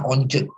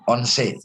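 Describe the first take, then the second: First: The final E is muted, not sharp. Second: The final E is sharp and clear. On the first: The speaker calls it wrong. "nggak pernah once" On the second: The speaker calls it right. "Huruf E itu pasti tajam"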